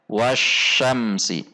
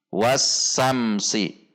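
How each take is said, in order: First: The consonant after 'wa' is an 'sh'. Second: The consonant after 'wa' is a plain 's'. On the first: The speaker calls it right. "Seharusnya wasyamsi" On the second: The speaker calls it wrong. "Kesalahan yang biasa terjadi adalah wasamsi"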